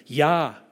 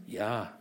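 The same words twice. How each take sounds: First: Louder, eager, beaming yes; enthusiastic yes. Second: Said in the usual way. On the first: Acted. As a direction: say yes like you're thrilled to be asked. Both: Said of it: "sagte er ganz begeistert".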